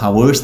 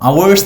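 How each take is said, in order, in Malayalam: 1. ഈ വാക്ക് ഹ ശബ്ദത്തിൽ തുടങ്ങുന്നു. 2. ഈ വാക്ക് നേരിട്ട് ഒരു സ്വരാക്ഷരത്തിൽ തുടങ്ങുന്നു. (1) "ഹവേഴ്സ് എന്ന് പറയില്ല" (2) "അവേഴ്സ് എന്നേ പറയുള്ളൂ"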